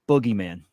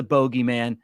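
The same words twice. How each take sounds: First: "boogeyman" with a short OO, BUH-gee-man. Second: "bogeyman" with a long O, BOH-gee-man. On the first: Host questioning the term, "boogeyman" said with OO as in book. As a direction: say "boogeyman" with first vowel as in "book". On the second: Host asking about the term, "bogeyman" said as BOH-gee-man. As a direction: say "bogeyman" with first syllable like "bow" in rainbow. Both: Shown as a demonstration. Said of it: "do you think they meant boogeyman?".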